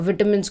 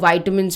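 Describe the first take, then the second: First: The first vowel is a short 'i' sound. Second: The first vowel is a long 'eye' sound.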